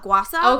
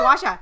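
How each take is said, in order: First: The second syllable begins with an 's' sound. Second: The second syllable begins with an 'sh' sound. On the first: "some of them don't do S-H-A. It's sa" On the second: "everyone says gua sha"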